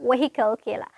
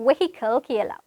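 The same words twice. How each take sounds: Both takes have the same delivery.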